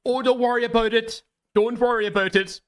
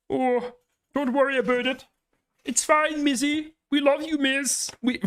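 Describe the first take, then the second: First: High, hammed-up Canadian accent attempt; bad Canadian accent, first try; failed Canadian accent. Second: Very high, pinched Kermit-like Canadian accent attempt; Canadian accent that turns into Kermit; Kermit the Frog voice. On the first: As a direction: reach for a Canadian accent and miss. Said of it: "I can't do a fucking Canadian accent". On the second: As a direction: slide into a Kermit the Frog squeak. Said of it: "I'm just doing Kermit the Frog now".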